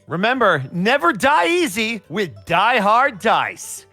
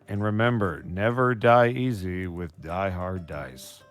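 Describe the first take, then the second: First: It is delivered in a theatrical, acted way. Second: It is delivered plainly, with little acting.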